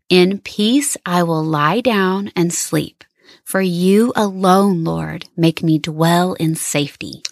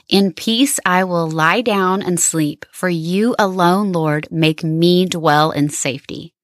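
First: It is read more slowly. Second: It is read at a normal pace.

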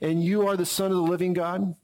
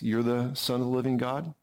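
First: It is declared boldly and forcefully. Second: It is said with calm, steady confidence.

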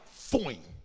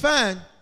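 First: The vowel is stretched and exaggerated. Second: The vowel is said plainly and briefly. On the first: She is strikingly attractive. The speaker calls it right. "Y'all don't even say it right" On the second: She is simply good looking. The speaker calls it wrong. "She ain't fine"

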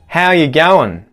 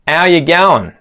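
First: The word are is left out. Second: The h sound of how is dropped. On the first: "remove that R from the phrase" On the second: "remove the H from the front of the word how"

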